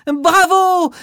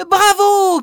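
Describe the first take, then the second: First: High, loud bravo; cheering. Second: Even higher, louder bravo; cheering louder. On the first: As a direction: cheer for the dancer. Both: Acted. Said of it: "crient les enfants".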